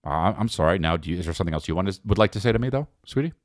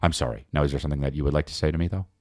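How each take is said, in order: First: Low, quick passive-aggressive sorry; passive-aggressive apology. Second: Much lower, fast sly sorry; passive-aggressive apology. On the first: His usual apology to his wife, low and clipped. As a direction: apologize while demanding one back. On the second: Showing how he apologizes, much lower and fast. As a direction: rush the apology into a demand. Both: Shown as a demonstration. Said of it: "That's me when I apologize".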